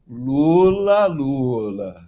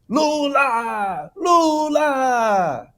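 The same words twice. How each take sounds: First: The name is said in a knowing, reproachful tone. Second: The name is shouted like an enthusiastic cheer. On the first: A warning that the person's wrongdoings are known. "É diferente" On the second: Forced, artificial support for the person. "esses dois gritos, aquilo estava extremamente artificial"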